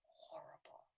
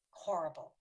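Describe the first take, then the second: First: "horrible" whispered, nearly silent; hushed whisper. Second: Said in the usual way. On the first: Real, not acted. Recalling the peanut danger, whispering "horrible". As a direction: breathe "horrible" with no voice at all. Repeats word hushed then aloud.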